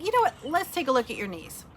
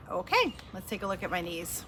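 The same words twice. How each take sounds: First: Much higher, bright chirpy take on the therapist; high-pitched therapist. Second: Said in the usual way. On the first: Retold or imitated. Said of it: "So one day she's like". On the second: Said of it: "her own echo reply".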